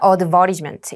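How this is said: It is said with a British pronunciation. "여기는 advertisement, 영국 발음이었고 호주 발음이었기 때문에"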